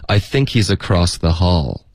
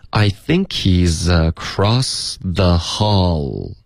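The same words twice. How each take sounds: First: Said in the usual way. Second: Slow, every link in the sentence drawn out; slow practice read. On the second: Shown as a demonstration. Teacher's slow first model for students, drawn out. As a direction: read it slowly for learners. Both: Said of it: "就是这么读".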